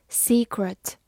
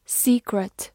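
Both takes have the same delivery.

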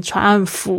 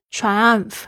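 First: Triumph mispronounced as "triumph-fu"; extra U at end. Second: Triumph ending in a light, voiceless F; light final F. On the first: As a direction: add an "oo" vowel after the final F of triumph. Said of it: "多加了一个U的声音". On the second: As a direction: finish Triumph on a bare, unvoiced "f". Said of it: "不要念得很重哦". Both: Shown as a demonstration.

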